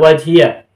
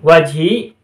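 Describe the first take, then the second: First: The word ends with an added 'ya' syllable. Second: The word ends on a long 'i' sound. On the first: "dibaca fathah" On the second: "dibaca sukun"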